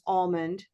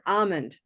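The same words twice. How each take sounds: First: The first vowel is made far back, darker. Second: The first vowel is made further forward, clearer. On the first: "it's not wrong to use almond" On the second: "by coming one category forward, it just becomes extra clear"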